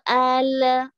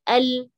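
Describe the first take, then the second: First: The final L sound is stretched out long. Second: The final L sound is cut off short. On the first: The speaker calls it wrong. "karena kepanjangan" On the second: The speaker calls it right. "udah gitu aja"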